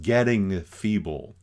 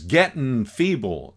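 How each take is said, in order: First: Getting is said in plain standard English. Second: Getting is said as gittin, in a country dialect.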